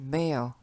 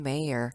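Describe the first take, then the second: First: It is said with a British accent. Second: It is said with an American accent. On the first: "영국이나 호주식으로는 mayor" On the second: "미국식은 mayor"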